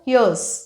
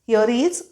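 First: The two words are joined into one short form. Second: The two words are said separately and fully. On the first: "English बोलताना असं fast बोलताना short forms वापरले जातात" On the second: "हिअर इज असं separate separate"

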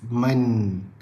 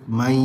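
First: It ends with a full n sound. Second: It ends in a nasalized y-like glide. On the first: The speaker calls it wrong. "Bila kita sebut man, maksudnya hujung lidah kita ditekan ke langit atas" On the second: The speaker calls it right. "kita sebut mai. Hujung lidah terapung, tengah lidah dinaikkan... ada dengung"

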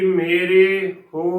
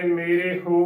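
First: The vowel after r is said fully. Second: The vowel after r is said very lightly. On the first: The speaker calls it wrong. "ਨਾ ਕਿ" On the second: The speaker calls it right. "ਰਾਰੇ ਨੂੰ ਸਿਹਾਰੀ ਹੈ ਉਹ ਬਿਲਕੁਲ ਹਲਕੀ ਬੋਲਣੀ ਹੈ"

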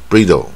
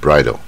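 First: It is read by spelling-based phonics rules. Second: It is said with the irregular standard pronunciation. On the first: The speaker calls it wrong. "你不要念成这个自然发音法bridle" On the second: The speaker calls it right. "它念bridle"

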